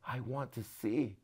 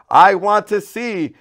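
First: Soft, slow and steady; hushed, slow request; quiet focused plea. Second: Loud, high, slow plea; slow raised cry. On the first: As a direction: say it simply and softly. Bartimaeus answering Jesus. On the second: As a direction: declare it with all you have. Blind man answering Jesus. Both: A narrator's reading.

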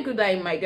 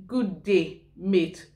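First: Imitated Australian, "day" as "die", "mate" as "mite"; Australian pronunciation. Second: Said in the usual way. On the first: Showing viewers what you hear in Australia, imitated Australian accent. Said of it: "When you hear". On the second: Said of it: "you're just saying".

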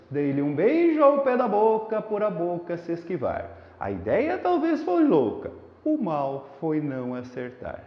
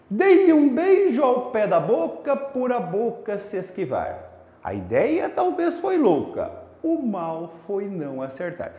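First: Soft, dreamy reading under the moon; softer, romantic delivery, fading line ends; inspired recitation. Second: Poem read with marked beat; marked rhythm, falling line ends; rhythmic recitation. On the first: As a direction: recite tenderly as if to her. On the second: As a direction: recite with a strong, regular cadence. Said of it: "Você percebeu o ritmo?". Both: Shown as a demonstration.

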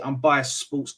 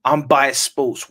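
First: Said in the usual way. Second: "biased" stressed, louder and slow; slow emphatic repeat. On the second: Shown as a demonstration. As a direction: repeat it slowly, leaning hard on "biased". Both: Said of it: "I repeat".

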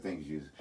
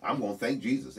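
First: Low, soft, thoughtless thank you; mumbled by habit with no thought in it; rote mumbled thanks. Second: Said in the usual way. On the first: Retold or imitated. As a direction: toss off "Thank you, Jesus" on autopilot, much lower and softer. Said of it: "you're like". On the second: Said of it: "you're not even thinking about it".

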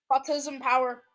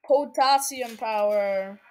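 First: Said in the usual way. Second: Slow, lower "Potassium power"; drawn-out delivery. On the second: Pretend. Repeats phrase in different ways.

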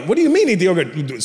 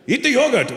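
First: Imitated son, baffled by dad; puzzled childish protest, without dad's accent; questioning child. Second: Put-on higher Indian-accented command; Indian-accented dad, impatient order; insistent Indian dad. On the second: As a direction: imitate an Indian father insisting. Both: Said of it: "My dad goes".

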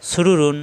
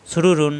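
Both takes have the same delivery.

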